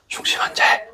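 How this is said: It is whispered softly like ASMR.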